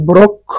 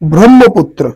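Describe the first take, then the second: First: The cluster is pronounced as 'kkh'. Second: The cluster is pronounced as 'hm'. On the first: The speaker calls it wrong. "অনেকে এটাকে ব্রক্ষ উচ্চারণ করে থাকে" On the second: The speaker calls it right. "সুতরাং উচ্চারণ হবে ব্রহ্মপুত্র"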